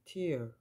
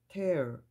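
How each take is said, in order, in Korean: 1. 이 모음은 'air' 소리가 아니에요. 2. 이 모음은 'air' 소리예요. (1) "이때 발음은 tear" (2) "에어 발음이 날 때는 찢다예요"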